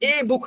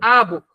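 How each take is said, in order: First: The article is said with an 'ay' vowel. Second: The article is said with an 'uh' vowel. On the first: The speaker calls it wrong. "There is এ বুক হবে না" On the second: The speaker calls it right.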